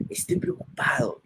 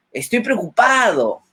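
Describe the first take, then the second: First: Higher, softer, truly worried tone. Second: Mismatched cheerful tone, as if happy; said cheerfully. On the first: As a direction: let the worry show in the voice. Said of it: "y colocas una cara de preocupado". (con voz preocupada, más aguda y suave) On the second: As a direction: say the worry as if nothing were wrong. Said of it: "y coloco una cara feliz". (dicho con tono alegre, sin preocupación) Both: Shown as a demonstration.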